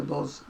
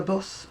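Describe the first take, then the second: First: "buzz" for bus, with short oo and voiced z; own northern pronunciation. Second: Said in the usual way. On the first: Shown as a demonstration. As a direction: say "buzz" ending on a buzzing z. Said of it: "but to me it was a buzz". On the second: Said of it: "I mean, that's a bus".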